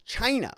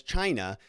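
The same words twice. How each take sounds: First: Imitating a punchy "China", falling sharply; hard-hit CHINA. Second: Said in the usual way. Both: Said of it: "he says it hard".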